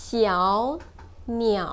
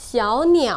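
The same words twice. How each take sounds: First: Said in the usual way. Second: 小鸟 with an added er curl at the end; retroflex ending. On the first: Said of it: "And plus retroflex tone". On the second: Shown as a demonstration. Teacher adding the retroflex final, r-coloured ending on 小鸟. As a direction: say 小鸟 as 小鸟儿, tongue curled back on the last syllable. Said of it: "retroflex tone".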